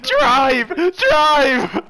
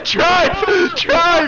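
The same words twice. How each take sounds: First: Imitating own frantic shouting, high and loud; retold panic. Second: High, loud frantic shouts; panicking gamer. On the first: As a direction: re-enact the panicked plea. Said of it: "I was like". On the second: Real, not acted. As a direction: scream at them to get away. Bear attacking, begging to escape.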